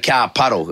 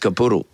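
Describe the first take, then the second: First: It is said in a non-Yorkshire English accent. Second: It is said in a Yorkshire English accent. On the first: "we would say car puddle" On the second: "if we're from Yorkshire, it's capuddle"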